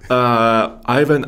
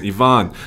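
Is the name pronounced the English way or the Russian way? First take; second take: English; Russian. First: The name is said with an English pronunciation. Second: The name is said with a Russian pronunciation. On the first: The speaker calls it right. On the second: The speaker calls it wrong. "That's the Russian pronunciation"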